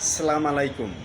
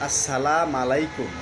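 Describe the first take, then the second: First: It starts with salam, without the initial as. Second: It starts with assalam, without the final u. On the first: It means camel entrails are for you. "এই কথাটির অর্থ হলো উটের নারু নারী ভুঁড়ি আপনার জন্য" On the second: It means death be upon you. "এ কথার অর্থ হলো আপনার মৃত্যু"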